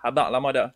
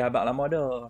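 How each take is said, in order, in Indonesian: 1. Diucapkan dengan intonasi biasa dan wajar. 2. Diucapkan dengan intonasi tiruan yang dramatis. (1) "dia punya intonasi bukan macam tu tadi" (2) "Sebetulnya intonasi dia"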